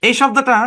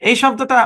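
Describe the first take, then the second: No difference in how they are said.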